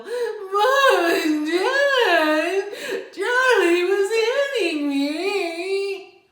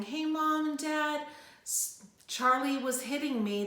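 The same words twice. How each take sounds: First: High, loud, drawn-out whine with a crying laugh; whining. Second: Said in the usual way. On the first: Shown as a demonstration. Child whining to mom and dad about Charlie. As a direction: stretch every word into a nasal-free childish whine. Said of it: "stop the whining". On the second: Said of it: "they go".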